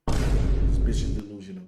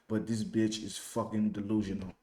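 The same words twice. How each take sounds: First: Louder, punched insult; loud emphatic repeat. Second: Said in the usual way. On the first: Real, not acted. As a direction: hammer the insult home.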